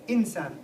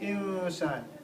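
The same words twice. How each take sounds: First: The n is pronounced clearly and fully. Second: The n is hidden and nasalised. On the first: The speaker calls it wrong. "You don't say insan" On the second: The speaker calls it right. "Ikhfa means that you hide the noon, you say it in your nose"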